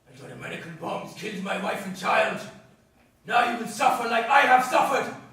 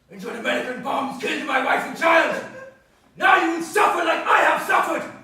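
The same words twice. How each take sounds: First: It is delivered in a milder, less nasty way. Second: It is delivered in a nasty, hateful way.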